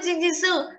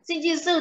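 First: Chi in sinh chi sư kept flat and level; correct chi. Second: Sinh chi sư with chi said flat and level. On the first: Teacher to student on the right tone: chi level. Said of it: "Thế tại sao đọc là". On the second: Teacher modelling the correct reading: chi said level. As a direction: say chi with no rising tone. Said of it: "sinh chi em vẫn đọc là chi là đúng". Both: Shown as a demonstration.

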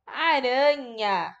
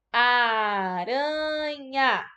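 First: Said in the usual way. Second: "Aranha" very slow, each syllable stretched out. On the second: Shown as a demonstration. Teacher asks pupils how many parts, syllables of "Aranha" drawn out. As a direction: stretch "Aranha" so every part can be counted. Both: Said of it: "Quantas partes tem".

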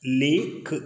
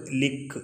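First: "ലീക്ക്" with a long ee, the wrong way; teacher shows the mistake "ലീക്ക്" before correcting it; wrong long vowel. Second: "ലിക്ക്" with a short clipped i; teacher gives the correct "ലിക്ക്" after the wrong one; correct short vowel. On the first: Deliberately wrong long-vowel reading. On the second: Right short-vowel reading. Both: Shown as a demonstration. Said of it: "ലീക്കല്ല".

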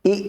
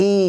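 First: Short "ই", not drawn out; short vowel. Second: Long drawn-out "ই"; long vowel. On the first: Teacher contrasting vowels for learners, brief "ই". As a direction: cut the "ই" short. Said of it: "প্রথমটা টান হচ্ছে না". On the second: Teacher contrasting vowels for learners, lengthened "ই". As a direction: stretch the "ই" out. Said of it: "দ্বিতীয়টা টান দিয়ে". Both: Shown as a demonstration.

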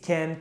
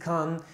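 First: "can" with a flat short a, like "kan" with the a of cat; "can" pronounced with the a of "cat"; one way of saying can. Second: "can" with an open a, like "kahn"; "can" pronounced with a long ah sound; the other way of saying can. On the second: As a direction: say "can" the British way, broad open a. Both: Shown as a demonstration. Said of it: "çok farklı telaffuz şekilleri olabiliyor".

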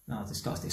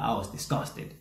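First: Softer, heavier echo of disgust; quieter repeat. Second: Said in the usual way. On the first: Real, not acted. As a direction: drop much softer on the echo.

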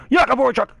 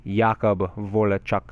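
First: Loud, high, aggressive yell of the name; fired-up shout of the player's full name; aggressive name call. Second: Said in the usual way. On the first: Real, not acted. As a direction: bellow his name like a war cry. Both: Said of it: "Get all aggressive with his name".

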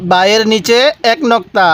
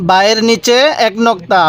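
No difference in how they are said.

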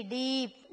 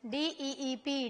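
First: Said in the usual way. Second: डीईईपी with the ee held extra long, slowly; डीईईपी said slowly, the long vowel stretched. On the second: Shown as a demonstration. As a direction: draw out the ee in डीईईपी for the students. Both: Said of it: "इसको थोड़ी देर लेके खींच के पढ़ा जाता है".

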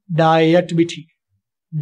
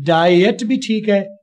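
First: डाइट said very slowly, lower, the second way; second take of डाइट. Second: डाइट said slowly, drawn out, the first way; slow demo of डाइट. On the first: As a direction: stretch डाइट, lower, as the other allowed form. (डाइट का दूसरा उच्चारण, धीमे) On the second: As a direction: spell out डाइट carefully with the vowel stretched. (धीरे से डाइट का उच्चारण) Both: Shown as a demonstration. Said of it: "तो दोनों ठीक हैं".

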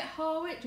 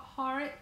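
First: Harwich with the w sounded, HAR-witch; "Harwich" read letter by letter, har-WITCH; spelling pronunciation. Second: Harwich said HARRISH with no w; "Harwich" in the local way, HAR-ish; local pronunciation. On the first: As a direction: say "Harwich" as spelt, w and ch both clear. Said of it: "Do you say it Harwich, or do you say". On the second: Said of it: "or do you say Har". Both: Shown as a demonstration.

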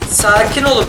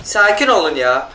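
First: Urgent, raised plea for calm. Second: Drawn-out, slow soothing plea; slow it right down to calm everyone; slow, hushed plea for calm. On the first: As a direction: push it out urgently, pleading. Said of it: "repeats calming plea more urgently". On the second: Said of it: "calming himself and teammates". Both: Real, not acted.

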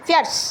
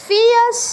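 First: ফিয়ার্স said plainly as fjars; right fierce. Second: ফিয়ার্স pitched high and loud, the wrong take; mock the wrong ফিয়ার্স; wrong fierce. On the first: (সঠিক উচ্চারণে ফিয়ার্স) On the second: (ভুল উচ্চারণে ফিয়ার্স) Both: Shown as a demonstration. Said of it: "ফিয়ার্স না".

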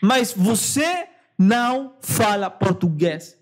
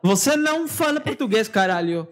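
First: Slow, deliberate mock correction; drawn-out phrase with weighty pauses; slow, emphatic insistence. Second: Quick, raised-pitch teasing objection; playful protest in Portuguese; mock scolding. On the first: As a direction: spell it out word by word. Repeats objection slowly for emphasis. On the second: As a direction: tell them off in one quick run.

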